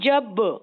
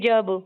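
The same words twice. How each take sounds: First: The final consonant bounces with a slight echo. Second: The final consonant stops flat without any echo. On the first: The speaker calls it right. "बल्कि क्या कह रही हूँ" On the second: The speaker calls it wrong. "जब नहीं कह रही"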